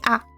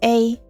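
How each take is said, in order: First: The vowel stays pure and steady throughout. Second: The vowel glides toward an ee sound. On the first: This is how Spanish speakers say it. "But in Spanish, you just say A. And that's it" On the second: This is how English speakers say it. "in English, you go from A to E and you say A"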